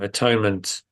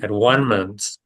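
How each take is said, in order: First: The middle syllable sounds like 'tone'. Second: The middle syllable sounds like 'one'. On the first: It implies making up for sin and guilt. "atonement implies the idea of sin and guilt" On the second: It implies becoming one with everything. "if you say it as at one-ment in the alternative"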